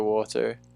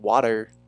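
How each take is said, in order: First: It is said in a non-American accent. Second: It is said in an American accent. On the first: "there's some words I say that are very s- still maybe not English, but not American" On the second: "not water"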